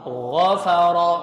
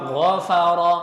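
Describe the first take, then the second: Both takes have the same delivery.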